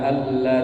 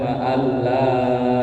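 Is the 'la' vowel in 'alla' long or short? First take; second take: short; long. First: The 'la' vowel is held short. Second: The 'la' vowel is drawn out long. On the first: It tells the children of Adam to worship Satan. The speaker calls it wrong. "La nya kan pendek" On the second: It tells the children of Adam not to worship Satan. The speaker calls it right. "harus jelas, agak panjangan"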